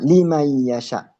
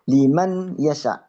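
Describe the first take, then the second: First: The n merges into the following y sound. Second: The n is pronounced clearly before the y. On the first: The speaker calls it right. "dimasukkan ke belakangnya" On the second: The speaker calls it wrong. "bukan dibaca liman yasha"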